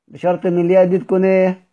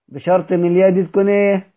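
Both takes have the same delivery.

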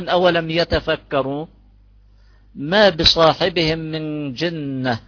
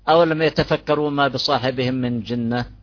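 First: There is a pause after يتفكروا. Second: The phrase runs on without a pause. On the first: The second part is a new negative statement. The speaker calls it right. "الوقف عليها تام" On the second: The second part sounds like a relative clause. The speaker calls it wrong. "أما بصيرش نقول"

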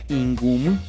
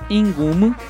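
First: The word is said on a low tone. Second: The word is said on a high tone. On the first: The house belongs to the listener. "para segunda persona posesivo es tono bajo" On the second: The house belongs to the speaker. "con tono alto"

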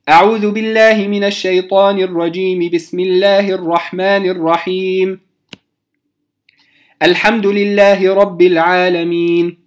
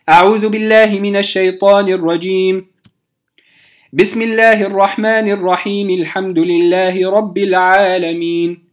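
First: The first two phrases join, then a pause follows. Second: A pause follows the first phrase, the rest joins. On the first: "وصلت الاستعاذة بالبسملة ووقفت، ثم بدأت بالحمد لله رب العالمين" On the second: "قطعت أو وقفت على الاستعاذة، ثم وصلت البسملة بأول الفاتحة"

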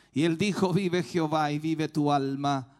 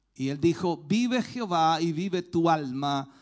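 The two takes are said the same way.

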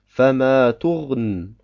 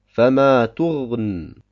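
The two takes are said the same way.

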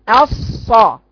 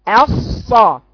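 Both takes have the same delivery.

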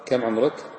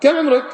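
First: It is asked as a plain, neutral question. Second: It is asked with a charged, reproachful tone. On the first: It genuinely asks for the person's age, like on a form. "السؤال الأول كم عمرك" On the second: It is not really asking for the person's age. "السؤال الثاني كم عمرك"

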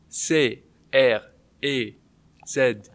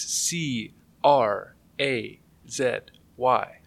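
First: The letters are spelled in a French accent. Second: The letters are spelled in a plain English accent.

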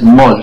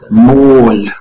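First: The vowel is said short. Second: The vowel is said long. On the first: The speaker calls it wrong. "No es mol" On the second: The speaker calls it right. "Así largo como el gol también"

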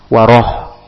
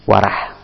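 First: The vowel after r is a rounded o. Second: The vowel after r is a thin a. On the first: The speaker calls it right. "pakai O" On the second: The speaker calls it wrong. "Ini keliru"

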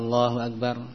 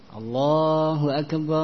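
First: The phrase is said quickly, without lingering. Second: The phrase is said slowly and drawn out. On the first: It is the call that starts the prayer itself. "Kalau iqamah cepat" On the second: It is the call announcing prayer time. "Kalau adhan, tamahul"

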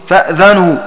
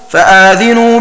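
First: A silent glottal stop comes first, then 'dha'. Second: A long vowel follows the glottal stop, then 'dhi'. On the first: "بهمزة ساكنة مع فتح الذال كما نطق به" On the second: "بالمد، أي بإثبات ألف بعد الهمزة، ويلزم من إثبات ألف بعدها فتحها وبكسر الذال"

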